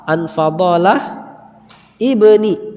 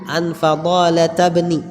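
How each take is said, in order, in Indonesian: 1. Kedua kata dipisah, dengan bunyi 'i' di awal. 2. Kedua kata menyambung tanpa bunyi alif. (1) "kalau dipisah" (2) "dibaca langsung nyambung"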